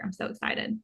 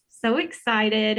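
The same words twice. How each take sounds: First: Whispered, thrilled aside; soft whispered excitement; excited whisper. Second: Slow, stretched gush of excitement; slow excited gush; drawn-out excitement. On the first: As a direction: breathe it like a happy secret. Whispered aside before handing over. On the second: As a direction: savour each word, thrilled. Gushing opener to the shopping trip. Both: Real, not acted.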